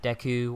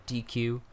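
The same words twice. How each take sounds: First: Deku with a short e, DEK-oo; "Deku" starting like deck; first pronunciation. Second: "D Q" said like the two letters, DEE-kyoo; "D Q" starting like dee; preferred pronunciation. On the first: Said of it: "how they pronounce things". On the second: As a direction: say "D Q" with a long ee. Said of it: "I've always called it D Q". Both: Shown as a demonstration.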